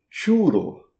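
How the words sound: It is said with Spanish pronunciation. This is how it is said in Madrid. The speaker calls it right. "pronuncia-se como churro"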